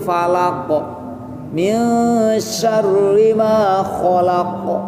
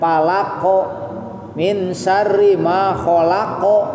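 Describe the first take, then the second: First: The final q gets only a light natural bounce. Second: The final q gets an exaggerated added vowel bounce. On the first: The bounce comes naturally from releasing the sound. The speaker calls it right. "bukan pantulan yang dibuat dengan sengaja" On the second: The bounce is added on purpose. The speaker calls it wrong. "Ade jangan ... Pantulan yang memang dibuat sengaja"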